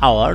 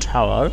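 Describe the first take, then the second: First: The word begins with a vowel sound. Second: The word begins with an h sound. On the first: The speaker calls it right. "উচ্চারিত হয়েছে like vowel sound" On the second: The speaker calls it wrong. "Not"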